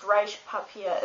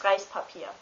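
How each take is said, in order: First: Reispapier with a sharp sh before the p, slowly; wrong Reispapier. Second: Reispapier with a clean s before the p; correct Reispapier. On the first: Teaching a friend German, the wrong sh sound. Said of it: "it's still not pronounced". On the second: Teaching a friend German, the right s sound. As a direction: say Reispapier properly with plain s. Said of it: "it's pronounced". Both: Shown as a demonstration.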